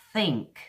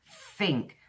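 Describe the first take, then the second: First: "think" with a clear th, tongue between the teeth; native th. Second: "think" as a slow "fink"; Cockney f for th. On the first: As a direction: say "think" the British way, dental th at the front. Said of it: "If you want to speak like a Brit". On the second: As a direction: say "think" with an f at the front, Cockney style. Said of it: "if you want to learn the Cockney English". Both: Shown as a demonstration.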